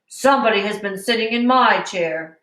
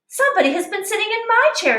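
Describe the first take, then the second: First: It is said in a big, deep voice. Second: It is said in a medium-pitched voice.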